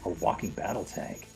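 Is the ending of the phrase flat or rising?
flat. The phrase ends flat, not like a question. "no, no, no, can you make it like a question?"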